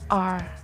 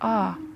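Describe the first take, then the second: First: The letter is said in an American accent. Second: The letter is said in a British accent. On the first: "Inggris Amerika dibacanya" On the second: "dalam Inggris British dibaca"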